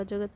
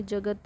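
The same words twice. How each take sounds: First: जगत ending on a bare t with no vowel after it; halant on final t. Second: Said in the usual way. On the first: Shown as a demonstration. Teacher corrects the word to end in a bare t. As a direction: clip the final त of जगत so it ends without a vowel, jagat. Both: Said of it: "त पे हलंत रहेगा".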